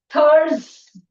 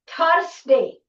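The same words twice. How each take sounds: First: The 's' is a buzzing z sound. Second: The 's' is a hissing s sound. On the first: The speaker calls it right. "the z sound" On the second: The speaker calls it wrong. "It is a wrong pronunciation"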